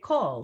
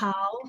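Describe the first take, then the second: First: The vowel is a rounded 'oh' sound. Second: The vowel is an open 'ah' sound. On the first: The speaker calls it right. "but in fact I say kol" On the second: The speaker calls it wrong. "this looks like"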